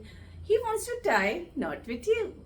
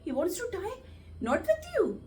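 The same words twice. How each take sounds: First: The sentence is said in a happy tone. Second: The sentence is said in a surprised tone. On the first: "अगर खुशी से बोलना है" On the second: "अगर surprise"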